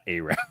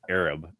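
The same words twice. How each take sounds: First: The word is said the American way. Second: The word is said the non-American way. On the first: The speaker calls it wrong. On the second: The speaker calls it right.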